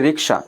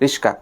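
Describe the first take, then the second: First: The k sound comes before the sh sound. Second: The s sound comes before the k sound. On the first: This is the standard form used in towns. "শহরে আমরা বলি যে রিকশা, একদম শুদ্ধ ভাষায় বলি" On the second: This is the rural colloquial form. "গ্রামের মানুষ বলে কি রিস্কা"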